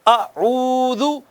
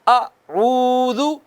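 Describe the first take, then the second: No difference in how they are said.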